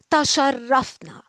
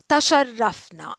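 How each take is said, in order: First: Said in the usual way. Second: تشرفنا whispered, no voice. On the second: Shown as a demonstration. Teacher whispering تشرفنا to the class.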